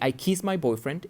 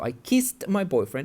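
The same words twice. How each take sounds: First: The verb has no final t sound. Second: The verb ends with a clear t sound. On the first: It sounds like the present tense. The speaker calls it wrong. "it's incorrect because I'm saying the present" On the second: It sounds like the past tense. The speaker calls it right. "it's important that you pronounce the ed correctly"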